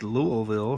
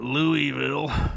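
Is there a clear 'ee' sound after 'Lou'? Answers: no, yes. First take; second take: no; yes. First: The name is said without an 'ee' sound. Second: The name is said with an 'ee' sound. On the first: The speaker calls it right. "Louisville is pronounced Louisville" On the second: The speaker calls it wrong. "It's not Louisville"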